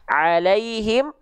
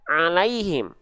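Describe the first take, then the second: First: The ain sound comes out through the mouth only. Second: The ain sound leaks through the nose, sounding nasal. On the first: The speaker calls it right. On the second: The speaker calls it wrong.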